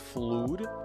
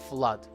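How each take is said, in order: First: The vowel is a long 'oo' sound. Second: The vowel is a short 'uh' sound. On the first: The speaker calls it wrong. "Many people pronounce it as flood. It looks like that because of the double O" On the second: The speaker calls it right. "flood with a short A"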